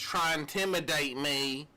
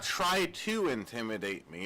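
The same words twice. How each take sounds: First: "try intimidate me" said with the "to" dropped; mocking mispronunciation. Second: Said in the usual way. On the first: Shown as a demonstration. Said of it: "It's not try to intimidate me". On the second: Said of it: "It's try intimidate me".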